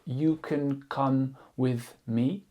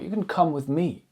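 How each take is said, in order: First: The sentence is said flat with no stressed words. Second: The words come and me are stressed. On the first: The meaning comes across less clearly. The speaker calls it wrong. "de prononcer la phrase euh, de manière assez neutre" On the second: It insists on coming, and with me. The speaker calls it right. "Le fait d'accentuer come et me"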